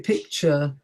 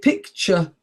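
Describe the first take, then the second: First: The final vowel is long. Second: The final vowel is short. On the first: "others will say picture" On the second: "without the long sound"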